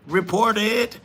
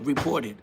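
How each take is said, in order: First: Sarcastic repeat of a chat comment; mocking echo. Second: Said in the usual way. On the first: Real, not acted. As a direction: report it higher, louder and rising, mocking. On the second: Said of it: "Somebody put".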